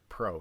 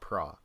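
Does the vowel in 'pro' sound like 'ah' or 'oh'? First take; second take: oh; ah. First: The vowel sounds like 'oh'. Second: The vowel sounds like 'ah'. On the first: "then you say I'm going pro" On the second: "not pra"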